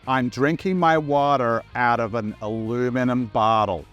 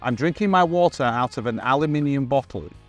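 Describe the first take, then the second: First: It is spoken in an imitated American accent. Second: It is spoken in the speaker's native accent. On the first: "Did pretty well. ... great American accent" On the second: "What do you guys say?"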